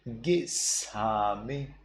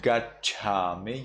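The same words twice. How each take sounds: First: Gisame with S for ch; Burmese S reading. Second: Gachame with a ch sound; standard reading. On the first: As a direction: slowly stretch gisame on the s. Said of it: "you read gisame". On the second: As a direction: say gachame as written, rising. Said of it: "Instead of gachame". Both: Shown as a demonstration.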